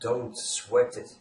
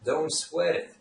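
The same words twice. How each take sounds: First: Each word is said separately and fully. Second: The words run together into one reduced chunk. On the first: The speaker calls it wrong. "I didn't pronounce it" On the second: The speaker calls it right. "is how this phrase is pronounced in real life"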